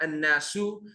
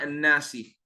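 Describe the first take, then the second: First: The word ends in a u vowel. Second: The word ends in an i vowel. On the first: "It's not an-nasu" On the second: "it's not an-nasi"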